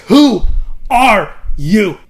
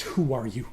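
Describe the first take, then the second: First: Very loud, high shout, word by word; furious shouted demand. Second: Low, soft, gentle-voiced question; shushing question. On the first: Acted. Queen hits Jon again, shouting her demand furiously. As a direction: shout it with a break after the first word. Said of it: "she hits him again". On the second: Queen shushing a weeping Jon, low and soft. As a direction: ask it quietly, pitched down. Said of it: "Daenerys shushes him".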